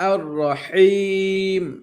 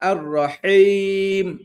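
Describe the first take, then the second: No difference in how they are said.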